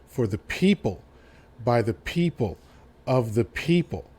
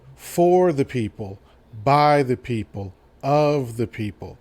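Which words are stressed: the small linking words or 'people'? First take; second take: people; for, by, of. First: The stress falls on each word people. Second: The stress falls on for, by and of. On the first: The speaker calls it right. "he put the emphasis on the word people" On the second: The speaker calls it wrong. "People tend to put the emphasis in the wrong parts of the quote"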